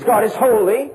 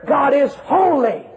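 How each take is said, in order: First: Said in the usual way. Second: HOLY raised and stretched out slowly; emphatic climax on holy. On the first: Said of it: "the declaration". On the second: Shown as a demonstration. Preacher takes the threefold declaration even further, emphatic on holy. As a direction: proclaim it, drawing out the word holy. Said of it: "and then even further".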